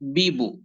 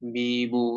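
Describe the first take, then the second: First: The vowels are kept short and plain. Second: The vowels are stretched and drawn out. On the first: The speaker calls it right. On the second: The speaker calls it wrong.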